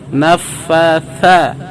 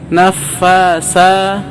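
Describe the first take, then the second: First: The middle consonant is a th sound. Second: The middle consonant is an s sound. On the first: The speaker calls it right. "Tapi yang betul adalah nafatha" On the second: The speaker calls it wrong. "malah lari ke huruf sa"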